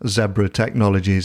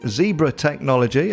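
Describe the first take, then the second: First: The name is said the British way. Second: The name is said the American way.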